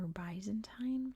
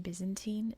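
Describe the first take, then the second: First: It is said with a non-American pronunciation. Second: It is said with the American pronunciation. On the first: "In pretty much every other form of English, they say Byzantine" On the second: "American English, we say Byzantine"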